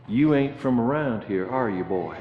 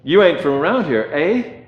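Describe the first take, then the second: First: Put-on a light rural Virginia accent, ending lower and softer; Virginia old boy. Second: Put-on a light Canadian accent, a bit quicker, eh tipped up; mock Canadian quizzing an outsider, lightly done; Canadian version. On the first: A Virginia local questioning the outsider, lightly put-on Southern accent. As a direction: lightly imitate a Virginia country man sizing up a stranger. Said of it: "When he heard my accent, he said". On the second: A Canadian local questioning the American, light mock Canadian accent. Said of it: "being an American in Canada".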